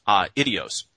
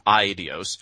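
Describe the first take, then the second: First: "uh, idios" with the opening vowels split, "ah" then "ee"; two separate syllables. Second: "idios" with the first two vowels run together as "eye"; diphthong pronunciation. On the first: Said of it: "or as two separate, uh, syllables". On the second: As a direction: say "idios" as EYE-dee-os, opening on one gliding vowel. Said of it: "taken together as a diphthong". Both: Shown as a demonstration.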